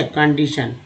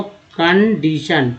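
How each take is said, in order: First: Said in the usual way. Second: condition slowly broken into कन-डी-शन; syllable by syllable. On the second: Shown as a demonstration. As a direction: spell out the sound of condition part by part. Teacher splits word into parts. (Condition को धीरे-धीरे तोड़कर)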